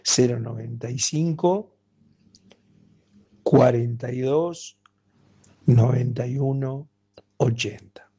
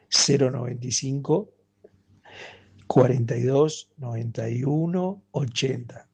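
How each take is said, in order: First: The number is said at a slow pace. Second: The number is said at a faster pace.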